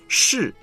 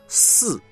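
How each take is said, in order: First: The initial sh is said with a curled tongue. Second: The initial sound is said with a flat tongue. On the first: The speaker calls it right. "是就不能说是" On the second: The speaker calls it wrong. "就不能说"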